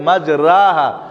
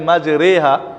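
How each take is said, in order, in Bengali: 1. r-এর পরের দীর্ঘ স্বরটি 'a'-র মতো শোনায়। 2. r-এর পরের দীর্ঘ স্বরটি 'e'-র মতো শোনায়। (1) "আসলে ছিল বিসমিল্লাহে মাজরাহা" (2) "দীর্ঘ আকারকে একার পড়া হয়েছে"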